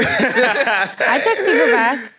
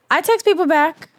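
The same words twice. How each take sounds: First: Text stretched out slowly; slow emphatic insistence. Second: Indignant. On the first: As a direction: drag out every word, insisting. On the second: Defending herself, repeated. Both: Real, not acted.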